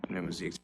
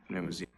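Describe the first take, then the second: The two takes are said the same way.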